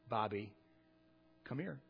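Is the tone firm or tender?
tender. It is said in a soft, tender tone. The speaker offers comfort to a hurt child.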